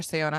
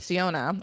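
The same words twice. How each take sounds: First: Second, differing attempt at the name "Siona"; alternative pronunciation. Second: First attempt at the name "Siona"; unsure pronunciation. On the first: Host unsure how to say character's name, alternative pronunciation. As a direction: offer the other pronunciation of "Siona", a bit lower. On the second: Host unsure how to say character's name, tentative first pronunciation. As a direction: try one possible pronunciation of "Siona". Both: Shown as a demonstration. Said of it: "I don't know how you say her name".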